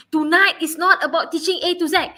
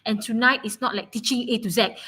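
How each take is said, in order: First: Louder and higher, pressing every word; insistent, with "not" punched loud; emphatic repeat. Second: Said in the usual way. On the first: Real, not acted. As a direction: drive the point home to the class. Teacher repeats the point emphatically.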